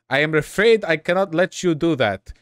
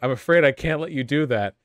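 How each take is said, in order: First: It is said in an attempted German accent. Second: It is said in a plain, unaccented voice.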